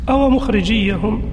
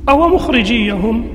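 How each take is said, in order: The two takes are said the same way.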